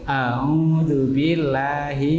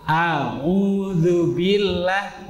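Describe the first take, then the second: First: It is said weakly, without energy. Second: It is said strongly, with force. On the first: The speaker calls it wrong. "suaranya kayak nggak semangat itu" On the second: The speaker calls it right. "harus ada yang kuat"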